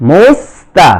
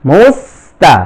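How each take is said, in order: The two takes are said the same way.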